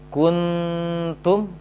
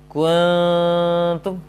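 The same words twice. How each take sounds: First: The n is a full, clear n with tongue contact. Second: The n is a thick hum with the tongue pulled away. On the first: "seakan-akan membaca nun yang sempurna" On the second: "Sebagai contoh yang jauh"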